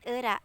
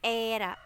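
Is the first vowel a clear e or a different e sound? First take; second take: different e; clear e. First: The first vowel is not a clear e. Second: The first vowel is a clear e. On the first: The speaker calls it wrong. "bukan era" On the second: The speaker calls it right. "e yang ada komanya itu era, bukan era tapi era"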